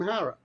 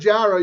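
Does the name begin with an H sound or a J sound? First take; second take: H sound; J sound. First: The name begins with an H sound. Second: The name begins with a J sound. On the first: The speaker calls it right. "It's pronounced with an H" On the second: The speaker calls it wrong. "instead of Jara"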